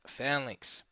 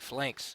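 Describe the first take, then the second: First: The word is said like 'phalanx'. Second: The word is said like 'flanks'. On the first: The speaker calls it right. "but it's uh, pronounced phalanx" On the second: The speaker calls it wrong. "Some people pronounce it flanks"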